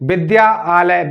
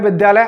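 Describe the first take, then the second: First: The two parts are said separately. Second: The two parts run together quickly.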